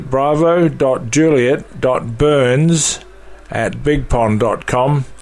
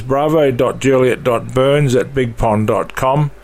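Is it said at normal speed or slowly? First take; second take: slowly; normal speed. First: It is said slowly. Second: It is said at a normal speed.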